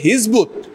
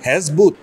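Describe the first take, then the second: First: The first vowel is pronounced as 'i'. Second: The first vowel is pronounced as 'e'. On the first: The speaker calls it right. "এটা হবে হিজবুত" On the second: The speaker calls it wrong. "এটা ভুল"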